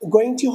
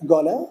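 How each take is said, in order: First: Both words are said fully and separately. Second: The words are squeezed into one short word.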